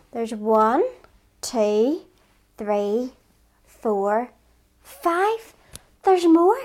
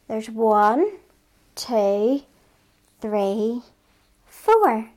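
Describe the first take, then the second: First: Put-on rising counting for kids; teaching a child to count. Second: Put-on counting along slowly with kids; teaching a child to count. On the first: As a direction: count along, building excitement. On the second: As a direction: count it out for little ones.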